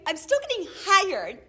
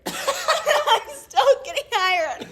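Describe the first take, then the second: First: Said in the usual way. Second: Laughing through the words, much higher. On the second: Real, not acted. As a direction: crack up while saying it. Laughing at own absurd story.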